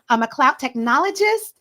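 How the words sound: The voice rises at the end like a question. It sounds like the speaker is asking, not stating. The speaker calls it wrong. "it sounds like you're asking a question"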